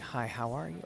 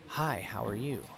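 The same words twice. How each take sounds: First: It is said plainly, without emphasis. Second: It is said with a little emphasis.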